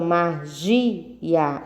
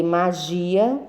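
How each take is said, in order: First: "magia" split as ma-gi-a, GI held; "magia" sounded out for pupils, long middle syllable. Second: Said in the usual way. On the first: Shown as a demonstration. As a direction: break "magia" into three beats, leaning on gi. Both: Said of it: "São três sílabas".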